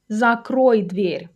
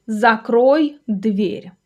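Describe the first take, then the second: First: Said in the usual way. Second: Very slow, separated words; slow model sentence. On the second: Shown as a demonstration. Teacher giving a door example to learners, very slowly. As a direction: spell it out word by word for learners.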